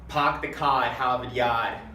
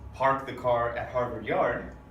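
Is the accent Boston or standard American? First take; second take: Boston; standard American. First: The r sounds are dropped with broad ah vowels. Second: The r sounds are clearly pronounced throughout. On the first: "with a Boston accent, this sentence sounds like" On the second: "we hear our R's nice and clean in the standard American accent"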